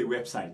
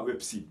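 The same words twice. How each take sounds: First: "website" rightly with an eye vowel; website said web-sight. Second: "website" wrongly with a French ee; website said web-seet. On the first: Teacher gives what we say, English eye vowel. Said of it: "but we say website". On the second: Teacher shows what not to say, French ee vowel. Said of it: "On ne dit pas website". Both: Shown as a demonstration.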